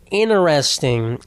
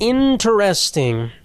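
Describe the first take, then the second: First: The T sound after the n is dropped. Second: The T sound after the n is pronounced.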